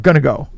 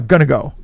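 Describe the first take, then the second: First: It is said in the reduced form 'gonna'. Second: It is said in the reduced form 'gonna'.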